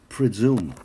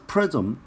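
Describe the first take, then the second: First: It ends in a long 'zoom' sound. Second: It ends in a short 'zm' like prism. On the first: The speaker calls it right. "presume이야" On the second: The speaker calls it wrong. "prism이란 거는 발음이 프리즘이 맞나?"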